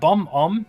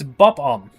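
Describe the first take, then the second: First: The first syllable ends with an m sound. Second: The first syllable ends with a b sound. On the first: The speaker calls it wrong. "It's not bomb om" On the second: The speaker calls it right. "it's bob om"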